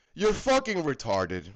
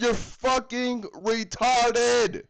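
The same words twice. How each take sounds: First: Said in the usual way. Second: Slow deliberate emphasis on "you're"; slow emphatic. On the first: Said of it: "repeats the insult". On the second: Shown as a demonstration. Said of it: "I hate to tell you this".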